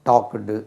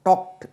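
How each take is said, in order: First: The ending is a separate syllable with a vowel. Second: The ending is a plain t with no vowel. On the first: The speaker calls it wrong. "டாக்குடு அப்படியே சொல்லி" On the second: The speaker calls it right. "இடி சேர்த்தா டாக்ட்"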